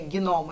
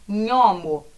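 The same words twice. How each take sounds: First: The g is sounded separately before the n. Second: The gn is a single 'nh' sound. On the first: "no português a gente falaria gnomo" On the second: "ela vai ter o som de N H, como gnomo"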